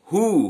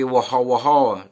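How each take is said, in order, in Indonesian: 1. Bunyi W tidak diucapkan. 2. Bunyi W jelas diucapkan. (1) "Jadi W-nya nggak bunyi" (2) "jangan lagi woho-woho"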